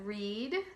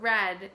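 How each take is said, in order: First: The vowel is long, rhyming with seed. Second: The vowel is short, rhyming with bed. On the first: It is the present or future form. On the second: It is the past form.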